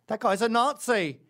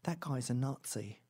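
First: Loud, high mocking yell; yelled accusation. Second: Slow, held-back accusation; slow, restrained finger-pointing; muttered accusation. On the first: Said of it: "They yell that from the lineup". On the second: Retold or imitated. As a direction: accuse someone slowly, without raising the voice. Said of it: "they go".

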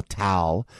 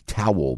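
First: "towel" flattened to one syllable, "tal"; South Jersey pronunciation. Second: "Towel" in two clear syllables; North Jersey pronunciation. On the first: Host contrasting regions, southern one-syllable "towel". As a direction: say "towel" as "tal", Philadelphia style. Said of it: "the South Jersey, uh, Philadelphia kind". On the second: Host contrasting regions, northern two-syllable "Towel". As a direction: say "Towel" as "tow-wel", North Jersey style. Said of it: "we'll say north". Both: Shown as a demonstration.

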